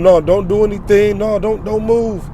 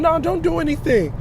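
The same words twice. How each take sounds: First: Lightly voiced woman telling him to freeze; mimicking the woman. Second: Much higher, shrill-sounding mock woman; hammed-up panicky woman's voice; mimicking the woman. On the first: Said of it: "she was telling him". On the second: Preacher mocking the woman shouting at her man, much higher. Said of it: "he listening to his woman".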